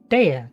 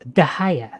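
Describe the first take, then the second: First: The name begins with a 'day' sound. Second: The name begins with a 'dah' sound. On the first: This is how the speaker used to say it. The speaker calls it wrong. "I pronounced her name Dea" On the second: This is the real pronunciation. The speaker calls it right. "It's actually pronounced Dahaya"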